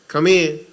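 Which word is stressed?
in. The word in is stressed more strongly. The speaker calls it wrong. "instead of saying come in"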